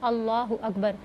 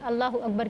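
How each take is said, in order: First: The L in Allahu is full and heavy. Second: The L in Allahu is thin and light. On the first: The speaker calls it right. "सही प्रॉपर तरीका है ... लाम को थोड़ा थोड़ा पुर अदा किया जाएगा" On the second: The speaker calls it wrong. "Normally जैसे अल्लाहु अकबर कहकर नमाज़ शुरू कर देते"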